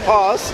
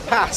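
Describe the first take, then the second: First: It is said in a southern English accent. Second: It is said in a northern English accent. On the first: "Why do southerners go and say glass, glass, pass?" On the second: "Why do northerners go and say the same word?"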